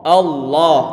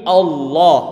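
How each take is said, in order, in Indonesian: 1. Bunyi L-nya tebal dan berat. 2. Bunyi L-nya tebal dan berat.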